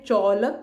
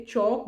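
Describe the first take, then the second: First: चौलक with the L sounded; wrong way. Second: चौक with silent L; right way. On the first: Teacher shows children the wrong way: चौलक with L spoken. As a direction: say चौलक pronouncing the L, as the mistake. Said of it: "चौलक नहीं बोलते". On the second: Teacher shows children the right way: चौक, L silent. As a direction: say चौक without any L sound, as the correct version. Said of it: "चौक बोलते हैं". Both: Shown as a demonstration.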